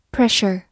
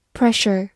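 No difference in how they are said.

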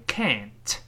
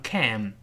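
First: Can't with the same front "a" as cat, then t; slow American can't, t sounded at the end. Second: Can with a clear front "a" as in cat; American can. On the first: Teacher showing the vowel stays, American can't ending in t. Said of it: "依然发哎". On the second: Teacher contrasting with British, American can with open front vowel. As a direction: say a slow, full American can. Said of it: "美音能读成can". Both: Shown as a demonstration.

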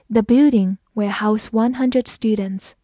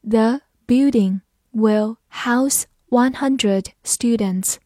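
First: Said in the usual way. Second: Slow, careful word-by-word read. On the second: Shown as a demonstration. Teacher reading slowly for students. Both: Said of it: "慢慢来读".

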